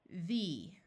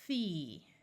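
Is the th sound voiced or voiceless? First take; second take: voiced; voiceless. First: The th sound is voiced, with buzzing. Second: The th sound is voiceless, without buzzing.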